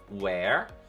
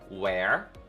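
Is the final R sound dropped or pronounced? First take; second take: pronounced; pronounced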